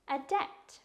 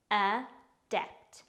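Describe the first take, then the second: First: Said in the usual way. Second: "Adept" in two separate beats, a, dept; careful, divided "Adept" for learners; syllable by syllable. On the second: Shown as a demonstration. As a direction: pause inside "Adept" after the first syllable. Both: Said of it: "It's pronounced".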